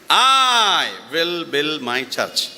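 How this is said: The stress is on I.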